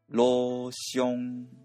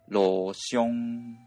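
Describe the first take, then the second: First: The first syllable is level at mid pitch. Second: The first syllable is level at low pitch. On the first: "元々の成長に基づいて発音をすると" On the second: "実際の発音では1 文字目は転調して、第3 声に変わって"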